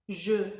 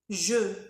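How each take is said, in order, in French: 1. Le mot a un son de voyelle e. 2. Le mot a un son de voyelle e.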